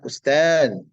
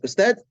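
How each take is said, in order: First: It is said with Arabic pronunciation. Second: It is said with Indonesian pronunciation. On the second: "bahasa Indonesia"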